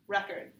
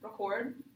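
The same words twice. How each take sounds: First: The stress is on the first syllable. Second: The stress is on the second syllable. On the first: It is a noun. "if you have it in the first part of the syllable record, it's a noun" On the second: It is a verb. "If it's in the second part of the word record, it's the verb"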